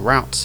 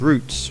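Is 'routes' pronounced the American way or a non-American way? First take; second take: American; non-American. First: It is pronounced the American way. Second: It is pronounced in a non-American way.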